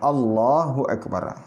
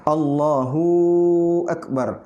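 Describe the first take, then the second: First: Only the 'lah' of Allah is lengthened. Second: A vowel other than the lam is lengthened. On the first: The speaker calls it right. "Cuma lamnya yang panjang" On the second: The speaker calls it wrong.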